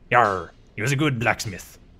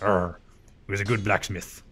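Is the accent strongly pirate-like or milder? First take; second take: strongly pirate; milder. First: It is said in a strong pirate-like accent. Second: It is said in a milder, less pirate-like accent.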